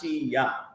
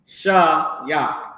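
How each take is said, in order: First: The first syllable has a narrow 'ee' vowel. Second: The first syllable has an open 'ah' vowel. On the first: The speaker calls it wrong. "they put the she on it too much" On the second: The speaker calls it right. "Shah-yak, not she-yak"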